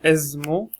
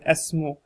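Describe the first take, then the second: First: The middle consonant is a z sound. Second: The middle consonant is an s sound. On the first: The speaker calls it wrong. "It's not ismu" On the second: The speaker calls it right. "it's like an S sound, not a Z"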